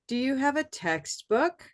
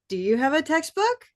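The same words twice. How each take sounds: First: The pitch dips low on 'text', then rises. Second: The pitch does not dip low on 'text'. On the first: The speaker calls it right. "that sounds normal" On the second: The speaker calls it wrong. "if I don't do this thing that I'm having you notice, it would sound like"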